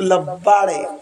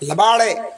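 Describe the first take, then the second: First: The word is drawn out in an affectionate tone. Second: The word is said short in a harsh tone. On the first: It is loving teasing. "लब्बाळ हा शब्द दीर्घ केला. आता लब्बाळ म्हटल्यामध्ये प्रेम आलं" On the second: It is an insult. "राग आला"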